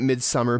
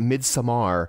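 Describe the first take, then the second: First: The second part sounds like English summer. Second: The second part has a Nordic-style vowel. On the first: This is how the speaker has always said it. The speaker calls it wrong. "I've always been calling it Midsummer" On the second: This is how other people say it. The speaker calls it right. "I have heard other people call it Midsommar. Um, and I think that's how you say it"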